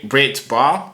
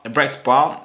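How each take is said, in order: First: "Brett Bar" slow and careful, ending in a t; corrected name. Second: "Brex Bar" said with an x, then corrected; misspoken name. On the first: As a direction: fix the slip: "Brett Bar", deliberately and slowly. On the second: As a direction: say "Brex Bar" with a clear ks sound, as a slip. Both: Real, not acted. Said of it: "Bre-, Brett Bar".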